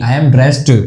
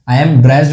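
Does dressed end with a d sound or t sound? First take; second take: t sound; d sound. First: The word dressed ends with a t sound. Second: The word dressed ends with a d sound. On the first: The speaker calls it right. "इसका जो सही pronunciation है वो होता है ट" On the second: The speaker calls it wrong. "इसका जो ईडी है ना ये ड्रेस्ड नहीं होता, आई एम ड्रेस्ड नहीं"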